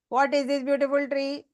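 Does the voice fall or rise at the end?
rise. The voice rises at the end, like a question. It is read as a question. The speaker calls it right. "There's a difference"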